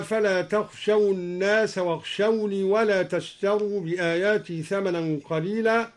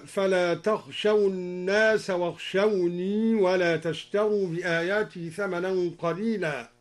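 First: Said in the usual way. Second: واخشوني with its final ya kept audible in the flow; al-Duri reading. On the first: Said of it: "قوله تعالى". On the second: Shown as a demonstration. Teacher showing students al-Duri's kept ya in واخشوني. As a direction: sound the ya at the end of واخشوني and join it to the next word. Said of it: "هكذا".

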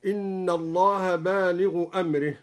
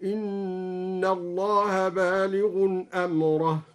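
First: Said in the usual way. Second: بالغ chanted slowly with nunation before أمره; slow recited variant. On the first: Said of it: "هكذا". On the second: Shown as a demonstration. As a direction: intone بالغ with tanwin, then أمره with fatha. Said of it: "بتنوين اسم الفاعل بالغ ونصب أمره".

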